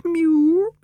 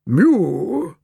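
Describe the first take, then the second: First: Very high, level, thin-pitched mew; high-pitched answering meow, held level; echoing cat's mew. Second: Drawn-out mew, pitched high then falling; bored feline meow, sliding downward; bored cat's mew. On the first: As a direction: mew back in a high female cat voice. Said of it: "and Florence echoed". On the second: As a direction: mew like a bored old tomcat. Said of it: "said Percival in a bored voice". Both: A narrator's reading.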